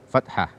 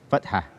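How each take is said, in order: No difference in how they are said.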